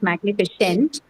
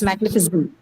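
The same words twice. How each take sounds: First: The last vowel is a full 'a' sound. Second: The last vowel is a weak schwa sound. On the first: The speaker calls it wrong. "It's not a. It's not magnificent" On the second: The speaker calls it right. "It's magnificent"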